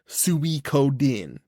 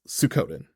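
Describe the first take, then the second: First: It is said the Japanese way, every syllable pronounced. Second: It is said with an American English pronunciation. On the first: It follows how the name is said in Japanese. "in Japanese where you have to pronounce every syllable" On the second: It is read off the title as an English speaker would. "as an American just reading the title"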